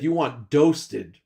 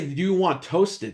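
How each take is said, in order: First: The last word begins with a d sound. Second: The last word begins with a t sound. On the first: "He said you want doasted" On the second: "He wouldn't say you want toasted"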